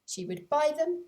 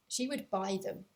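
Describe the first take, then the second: First: Louder, higher emphatic "She would buy them"; emphatic repeat. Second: Said in the usual way. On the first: A narrator's reading. Narrator stressing the bride's firm choice. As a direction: land the decision firmly, with "them" rising.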